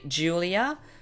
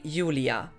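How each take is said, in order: First: The name is said with English pronunciation. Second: The name is said with German pronunciation. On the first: "in English you would say Julia" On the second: "German uh, you would just say Julia"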